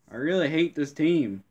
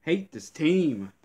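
First: "really" punched higher and louder; "really" hit high, rest falling; stress on really. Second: Higher, drawn-out hate; slow, higher grumbling hatred; slow seething. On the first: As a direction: lean hard on "really". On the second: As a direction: stretch each word out in disgust. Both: Real, not acted. Fuming at own team.

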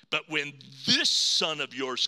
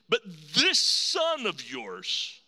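First: Said in the usual way. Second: Slow, leaning hard on "this"; stress on this. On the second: Shown as a demonstration. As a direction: drag out "this son of yours", punching "this". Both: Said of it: "he's not my brother".

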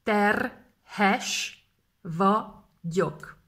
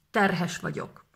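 First: Slowly split. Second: Said in the usual way. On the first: Shown as a demonstration. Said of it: "Terhes / vagyok (slow split)". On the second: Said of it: "repeat at normal pace".

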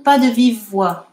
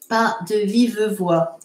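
First: Said in the usual way. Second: "Pas de vive voix" spaced out word by word. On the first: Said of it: "on va, on va dire". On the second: Shown as a demonstration. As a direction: leave a gap after "Pas", hold "vive". Dictation repeated more slowly.

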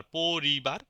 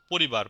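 First: "পরিবার" drawn out as po-ri-bar; syllable by syllable. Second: Said in the usual way. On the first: Shown as a demonstration. Teacher comparing with Bangla, separated syllables in "পরিবার". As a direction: stretch each syllable of "পরিবার". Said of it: "single ভাবে উচ্চারিত হয়". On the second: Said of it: "যেমন বাংলাতে যেরকম বলি".

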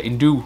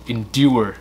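First: "endure" cut short as in-doo; missing final ur. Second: "Endure" ending in a clear ur; full final ur. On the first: Teacher shows the student's error, ending dropped. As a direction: drop the last sound of "endure". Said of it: "thiếu chữ ur ở". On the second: Teacher corrects the missing ending, final ur sounded. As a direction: finish "Endure" as in-dyoo-er. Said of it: "thiếu âm ur ở". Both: Shown as a demonstration.

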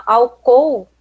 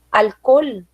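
First: Said in the usual way. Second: "álcool" as al-KOL, clear final L; Spanish pronunciation. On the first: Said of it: "por exemplo". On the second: Shown as a demonstration. Teacher comparing spellings, "álcool" said Spanish as al-KOL. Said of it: "nós temos álcool e temos alcool".

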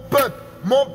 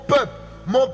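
Both takes have the same delivery.

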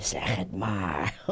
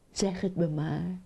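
First: Put-on very low, slow old frog. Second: Lightly voiced young husband frog. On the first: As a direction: coax in a deep, slow voice. Old frog coaxing young frog. (lage, trage stem van de oude kikker) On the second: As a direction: coax her, close to the usual voice. Young frog coaxing his blushing wife. (licht aangezette stem van de jonge kikker)

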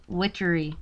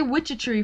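First: "witchery" said right as WITCH-er-ee; "witchery" in three clean syllables, no extra t; said correctly. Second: "witchery" said as WITCH-e-tree; "witchery" with an extra t syllable slipped in; mispronounced. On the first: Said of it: "I think I can say it now". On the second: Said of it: "I always say witchery". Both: Shown as a demonstration.

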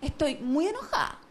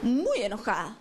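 First: Mock angry. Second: Lower, drawn-out mock sulk on "muy enojada"; hammed-up anger. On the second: To her boyfriend, milking her anger in a low pout. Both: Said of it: "Entonces voy y le digo".

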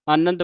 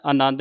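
First: ਆਨੰਦ with short middle vowel, 'anand'; correct reading. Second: ਆਨੰਦ with long middle vowel, 'anaand'; wrong reading. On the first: Teacher shows the reading, ਆਨੰਦ as short 'anand'. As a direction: keep the second a of ਆਨੰਦ short. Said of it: "ਆਨੰਦ ਪੜ੍ਹਨਾ". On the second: Teacher warns what not to say, ਆਨੰਦ as long 'anaand'. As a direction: stretch the second a of ਆਨੰਦ. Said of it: "ਆਨੰਦ ਨਹੀਂ ਕਹਿਣਾ". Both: Shown as a demonstration.

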